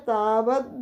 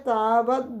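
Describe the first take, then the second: The two takes are said the same way.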